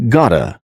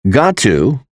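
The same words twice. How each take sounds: First: "gotta" as GAH-tuh; casual blended "gotta", one t; reduced got to. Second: Said in the usual way. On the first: Shown as a demonstration. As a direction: run "gotta" together with a weak final "uh". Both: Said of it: "is pronounced as".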